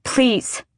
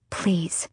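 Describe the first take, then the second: First: Higher, insistent pleading; raised, pressing appeal over the rain; urgent plea. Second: Hushed, pleading word; quiet first appeal; soft plea. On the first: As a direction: plead harder, pitch jumping up. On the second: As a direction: plead softly, holding back. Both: A narrator's reading. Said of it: "Lysandra said over the rain".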